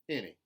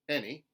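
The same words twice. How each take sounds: First: The stressed vowel sounds like ih. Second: The stressed vowel sounds like eh. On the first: "contemporary Southern I" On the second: "Standard American eh"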